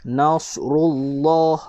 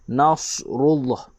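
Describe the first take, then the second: The two takes are said the same way.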